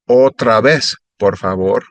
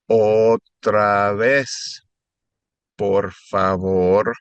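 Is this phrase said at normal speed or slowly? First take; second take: normal; slowly. First: It is said at a normal speed. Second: It is said a little more slowly. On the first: "I'll say it normal" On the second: "and then a little slower"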